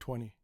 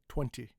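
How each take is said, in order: First: The T sound after the N is dropped. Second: The T sound after the N is pronounced. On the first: "I've always said" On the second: "in my life, I've never said"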